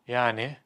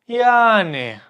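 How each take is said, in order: First: The word is said with a questioning tone. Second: The word is lengthened and dragged out. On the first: So what, why are you telling me this? "Your tone should be like questioning" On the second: It was so-so, not good, not bad. "You lengthen it. You drag it out a little bit"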